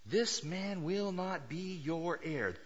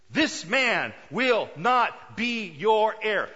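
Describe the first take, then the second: First: "This man will not be your heir" slow and controlled, each word set apart; measured emphatic. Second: "This man will not be your heir" loud and slow, each word pounded; emphatic displeasure. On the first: God making it clear to Abraham, measured emphasis on each word of "This man will not be your heir". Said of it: "It, emphatic". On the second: God unhappy with Abraham, emphatic on every word of "This man will not be your heir". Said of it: "God is just a little bit unhappy". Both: Acted.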